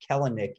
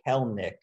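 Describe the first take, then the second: First: The name is said with three syllables. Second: The name is said with two syllables. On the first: The speaker calls it wrong. "It is not Kelenic" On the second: The speaker calls it right. "It is Kelnick"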